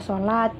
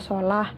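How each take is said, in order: First: The word ends with a t sound. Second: The word ends with an h sound. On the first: The local Nusantara way of reading it. "dalam bahasa Nusantara dibaca sholat" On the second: The Arabic way of reading it at a stop. "dalam keadaan wakaf atau berhenti dibaca ha"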